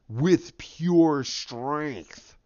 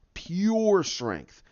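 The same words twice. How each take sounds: First: Drawn out, very slow; slow emphasis. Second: Said in the usual way. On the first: Retold or imitated. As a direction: stretch every word out slowly. Emphatic storytelling.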